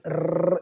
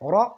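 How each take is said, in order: First: The r is rolled with several quick taps. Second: The r is made with a single tap. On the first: The speaker calls it wrong. "आमतौर पर इसको र, र, इस तरह पढ़ देते हैं" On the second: The speaker calls it right. "तकरार यानी बार बार इस तरह नहीं पढ़, एक ही दफा रा"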